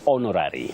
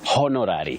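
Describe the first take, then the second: First: The word starts with a silent h. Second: The word starts with a sounded h. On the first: The speaker calls it right. "That H is silent" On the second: The speaker calls it wrong. "you don't say honorary"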